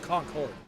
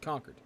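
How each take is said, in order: First: It is said the southern way. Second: It is said the New England way. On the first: The speaker calls it wrong. "they pronounce it Concord" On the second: The speaker calls it right. "up here in the east, we pronounce that that's Concord"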